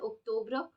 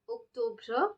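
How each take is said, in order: First: The final 're' sound is light and natural. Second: The final 're' sound is strongly exaggerated. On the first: "but it is pronounced as octobre" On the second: "I'm just emphasizing so that you all know that there is re sound"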